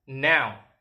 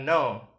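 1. Vokalnya meluncur jelas seperti 'ow'. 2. Vokalnya terdengar seperti kata 'no'. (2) "bukan no"

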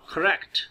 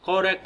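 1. पहला स्वर एक घटा हुआ श्वा है। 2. पहला स्वर एक पूरा स्वर है।

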